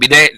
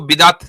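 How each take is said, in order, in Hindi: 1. यह शब्द एक स्वर से खत्म होता है, t के बिना। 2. यह शब्द अंत में एक साफ़ t की ध्वनि से खत्म होता है। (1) "बिदे अगर प्रोनाउंसिएशन है, लेकिन टी जो है वो साइलेंट है" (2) "आप उसको बिदात पढ़ सकते हैं"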